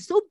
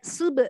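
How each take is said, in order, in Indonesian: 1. b tidak memiliki pantulan kecil itu. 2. b dilepas dengan sedikit pantulan. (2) "dibacanya sub kayak sub gitu"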